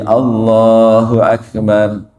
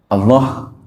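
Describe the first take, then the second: First: It is said fully, slowly and clearly. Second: It is cut short, the ending barely audible. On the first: The speaker calls it right. "harus jelas. Ya tadi harus tumaninah bacanya" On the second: The speaker calls it wrong. "jadi pendek. Allah, cuman gitu doang"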